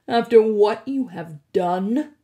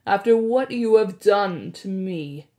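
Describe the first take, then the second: First: Louder, rising furious demand; angry accusation. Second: Louder oily accusation; smarmy blackmailer. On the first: Hades angered. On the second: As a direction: lean on the accusation, oily and cold. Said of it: "in an oily voice". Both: Acted.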